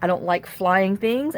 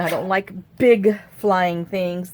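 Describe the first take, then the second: First: Said in the usual way. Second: Big stretched and set apart; emphatic weight on big; stress on big. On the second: Real, not acted. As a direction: lean hard on the word big.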